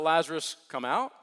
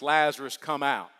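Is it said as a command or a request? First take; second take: request; command. First: It is said as a soft, polite request. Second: It is said as a loud, forceful command.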